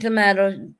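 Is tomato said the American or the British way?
British. The middle vowel is a broad 'ah' sound. This is how the speaker says it. "I'm saying tomato"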